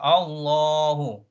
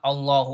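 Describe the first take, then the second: First: The long vowel is held for two counts. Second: The long vowel is cut short. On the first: The speaker calls it right. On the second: The speaker calls it wrong.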